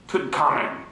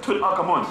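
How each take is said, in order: First: Tutankhamun squashed to Toot'n-kahmen; dropped syllables. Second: Tutankhamun as Tut-Ankh-Amun, middle vowel clear; full syllables. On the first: Retold or imitated. Teacher mimicking outsiders' version, squashed Tutankhamun. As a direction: swallow the middle of Tutankhamun. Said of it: "don't pronounce your syllables right". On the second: Shown as a demonstration. Teacher showing the proper name, full-syllable Tutankhamun. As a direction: sound out every part of Tutankhamun. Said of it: "But you can't pronounce".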